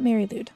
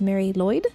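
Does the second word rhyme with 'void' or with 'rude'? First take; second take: rude; void. First: The second word sounds like 'lood'. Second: The second word sounds like 'loid'. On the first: The speaker calls it wrong. "not Mary Lude" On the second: The speaker calls it right. "It is Mary Lloyd"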